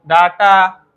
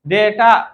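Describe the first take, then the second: First: The first vowel sounds like 'ah'. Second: The first vowel sounds like 'ay'. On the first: This is the form most people use. "उसको डाटा सब बोलता है" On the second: This is the form it is properly called. "डेटा बोलता है"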